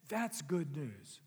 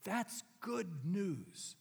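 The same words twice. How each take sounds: First: Slow echo. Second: Very slow, drawn-out good news; slow sincere. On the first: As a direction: let it sink in. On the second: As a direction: savour every word. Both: Acted. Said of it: "Can you feel the power".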